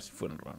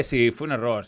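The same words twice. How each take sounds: First: Whispered aside. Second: Said in the usual way. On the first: Real, not acted. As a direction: whisper it to yourself. Repeats, then whispers.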